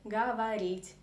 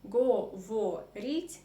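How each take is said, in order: First: The unstressed vowels are reduced to an A sound. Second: The unstressed vowels sound like a full O. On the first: "but we say говорить" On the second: "we write говорить"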